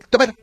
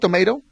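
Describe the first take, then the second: First: The word is said lazily and slurred. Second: The word is said clearly and carefully. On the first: The speaker calls it wrong. "como que les da flojera decir" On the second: The speaker calls it right. "En lugar de decirte tomato"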